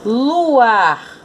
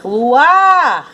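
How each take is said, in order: First: Said in the usual way. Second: "Luar" called out high and loud, long "-ar"; calling the word. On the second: Shown as a demonstration. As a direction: call "Luar" as if summoning it, stretching the end. (chamando "Luar", com "-ar" forte e alongado) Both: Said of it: "chame a palavra".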